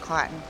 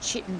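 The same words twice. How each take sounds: First: The word begins with a k sound. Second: The word begins with a ch sound. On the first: This is how most other people say it. "everyone says it's, it's chitin. And I'm like, how does the C H make chitin?" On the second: This is the speaker's own preferred way. "it's chitin to me because it's a ch sound at the start"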